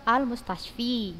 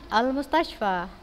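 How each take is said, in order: First: The word ends with an 'i' vowel. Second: The word ends with an 'a' vowel. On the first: The speaker calls it wrong. "tapi malah diucap" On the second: The speaker calls it right.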